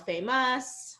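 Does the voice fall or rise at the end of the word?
rise. The pitch rises at the end of the word. The speaker calls it wrong. "there's kind of this upward intonation at the end of the sentence"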